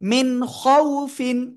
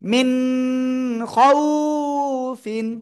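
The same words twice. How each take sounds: First: The vowel in khawfin is short. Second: The vowel in khawfin is drawn out. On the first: The speaker calls it right. "লিনের হরফ তাড়াতাড়ি পড়তে হয়, কোনো টান হয় না।" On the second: The speaker calls it wrong. "Totally ভুল।"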